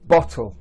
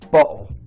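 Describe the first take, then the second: First: The t is clearly pronounced as a t. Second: The t is replaced by a glottal stop. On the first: "the first time I'll say a word, I'll use the t" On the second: "the second time I'll use the glottalization, so without the t"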